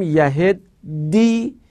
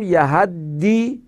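First: یهدی drawn out, short "e" before the doubled d; slow, clear "yaheddi" for یهدی; yahiddi with e-vowel. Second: یهدی drawn out, open "a" before the doubled d; slow, clear "yahaddi" for یهدی; yahaddi with a-vowel. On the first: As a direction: say یهدی slowly as "ya-HED-di", e after the h. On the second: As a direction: say یهدی slowly as "ya-HAD-di", a after the h. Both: Shown as a demonstration. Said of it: "چه بگیم یهدی".

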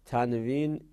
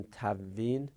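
First: Said in the usual way. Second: تنوین said tævvin, the n merged into a doubled v; wrong merged pronunciation. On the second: Shown as a demonstration. (تنوین با ادغام نادرست نون در واو) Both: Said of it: "این اشتباس".

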